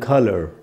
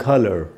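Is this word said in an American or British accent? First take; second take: American; American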